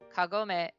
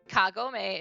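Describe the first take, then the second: First: The word has a Japanese-style emphasis. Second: The word has an English-style emphasis. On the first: "Kagome is the Japanese" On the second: "Kagome is the English pronunciation"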